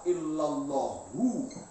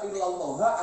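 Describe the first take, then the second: First: The word ends with a final 'u' vowel. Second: The word ends with a final 'a' vowel. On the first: The name is read as a substitute for the omitted predicate. "Boleh dibaca illallahu. Dia atas nama badal" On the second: The name is read as an exception. "Boleh dibaca illallah atas nama istisna"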